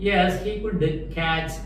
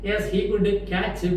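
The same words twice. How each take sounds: Both takes have the same delivery.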